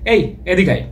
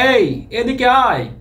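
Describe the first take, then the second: First: It is said in a casual, everyday way. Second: It is said in an exaggerated, stagey way. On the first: This is how people normally call someone. The speaker calls it right. "Casually ডাকলে আমরা কিন্তু ডাকবো" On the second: It sounds like a folk stage play. The speaker calls it wrong. "যাত্রার মতো শোনাচ্ছে না একটু?"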